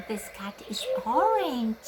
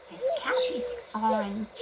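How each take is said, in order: First: Said in the usual way. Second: High repeat. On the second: Shown as a demonstration.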